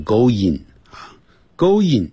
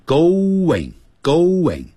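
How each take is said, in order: First: GOING as a hard "go-yin", no w glide; Chinese English going. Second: GOING said "go-wing", slow; going with a W glide. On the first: Teacher warns students off Chinese English, "going" as a mock go-yin. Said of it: "千万不要再念成going啊". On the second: Teacher shows students the w sound, "going" as a slow go-wing. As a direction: draw out "going" with a w before the -ing. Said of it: "就会变成w的音". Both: Shown as a demonstration.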